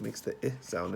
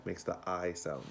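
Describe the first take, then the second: First: "I" said as short "ih"; short-vowel "ih" in place of "I". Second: "I" said as long "eye"; long-vowel "eye" for "I". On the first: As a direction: say "I" as the vowel in kit. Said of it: "if it has no E". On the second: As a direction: say "I" like the letter's name. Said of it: "If it has the E". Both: Shown as a demonstration.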